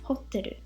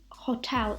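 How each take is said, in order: First: It is said with Japanese pronunciation. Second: It is said with English pronunciation.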